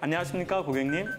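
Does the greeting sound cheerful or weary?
cheerful. The greeting sounds bright and eager. The job still feels fresh and meaningful. "처음에 할 때는 이렇게"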